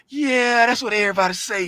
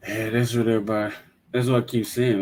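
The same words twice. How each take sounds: First: Mocking grumble. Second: Defensive. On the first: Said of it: "you was like". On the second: Real, not acted. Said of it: "Your voice sound like you fighting me".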